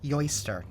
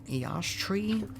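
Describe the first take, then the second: First: The name starts with a 'yo' sound. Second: The name starts with an 'ee' sound. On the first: The speaker calls it right. "That's how you pronounce that" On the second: The speaker calls it wrong. "I probably said that wrong too"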